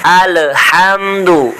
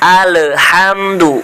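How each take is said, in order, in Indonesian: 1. Huruf L dipantulkan dengan vokal pendek setelahnya. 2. Huruf L dipantulkan dengan vokal pendek setelahnya.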